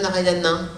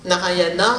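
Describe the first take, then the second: First: The name ends in a relaxed nasal vowel. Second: The name ends in a clear, tense a vowel.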